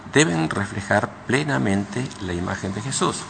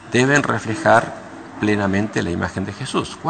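No difference in how they are said.

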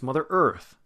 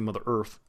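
First: Earth is full and clearly stressed. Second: Earth is weak and reduced, without stress. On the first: The speaker calls it right. "It's Mother Earth. So it's got stress to it" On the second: The speaker calls it wrong. "We don't back off of it. We don't say"

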